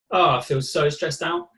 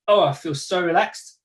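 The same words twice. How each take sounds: First: Leaning back loose, say you're stressed; sprawled out, claiming stress; relaxed body, saying stressed; mock stressed. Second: Tense body, say you're relaxed; curled up tight, claiming calm; hunched and tense, saying relaxed; mock relaxed. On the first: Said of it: "lean back, legs out, big breath". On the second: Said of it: "I want you to say to yourself". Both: Shown as a demonstration.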